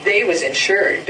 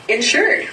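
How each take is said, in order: First: Said in the usual way. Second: "insured" rising high like a doubting question; questioning echo. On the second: Acted. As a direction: echo "insured" back with a lifted quizzical end. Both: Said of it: "repeated his listener".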